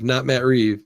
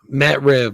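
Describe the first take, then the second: First: The surname has a long vowel, like 'reeve'. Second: The surname has a short vowel, like 'rev'. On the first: The speaker calls it wrong. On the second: The speaker calls it right. "Matt Rev, not Matt Reeve"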